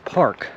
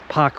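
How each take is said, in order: First: The R sound is clearly pronounced. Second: The R sound is dropped after the vowel. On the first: The speaker calls it right. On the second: The speaker calls it wrong.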